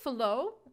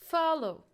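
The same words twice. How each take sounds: First: The stress is on the second syllable. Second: The stress is on the first syllable. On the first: The speaker calls it wrong. "We cannot say follow" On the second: The speaker calls it right. "so it's follow. The stress on the first"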